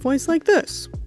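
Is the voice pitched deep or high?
deep. The voice is pitched deep. It suits an authority figure or a big creature. "where I'm much deeper and more masculine sounding"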